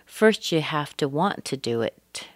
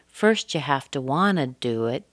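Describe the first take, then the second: First: Want to is said as two full words. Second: Want to is reduced to wanna. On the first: It is a more formal, work register. "So if you're talking at work, you might say" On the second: It is a casual register among friends. "if you're talking to your friends and your family, you might say"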